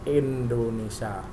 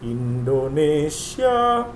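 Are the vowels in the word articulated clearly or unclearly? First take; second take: unclearly; clearly. First: The vowels are articulated vaguely and unclearly. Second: The vowels are articulated fully and clearly. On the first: The speaker calls it wrong. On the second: The speaker calls it right. "kebenaran pengucapan kata"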